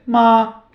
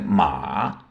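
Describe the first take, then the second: First: Ma high and level; first tone. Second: Ma low dipping, slow; third tone. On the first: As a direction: hold ma flat and high. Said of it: "Aqui é como mãe". (ma no primeiro tom, alto) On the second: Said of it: "é cavalo". (ma no terceiro tom, grave) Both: Shown as a demonstration.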